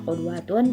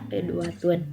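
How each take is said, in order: First: The first vowel is a rounded 'u' sound. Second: The first vowel is a front 'i' sound. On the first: Bedouin or nomadic speakers say it this way. "huruf qofnya bisa berharokat domah" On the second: Settled town speakers say it this way. "bisa berharokat kasroh"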